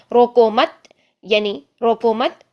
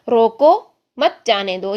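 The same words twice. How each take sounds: First: روکو مت said as one phrase with a rise, then the stop; pause after mat. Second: روکو stopped, then مت جانے دو after a pause, slow; pause after roko. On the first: Teacher showing the other pause: روکو مت, then stop. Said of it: "اور پھر ہم آغاز کریں جانے دو". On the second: Teacher showing where to pause: روکو, pause, مت جانے دو. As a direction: stop clearly after روکو. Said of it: "ہم نے سٹاپ کہاں پر لیا". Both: Shown as a demonstration.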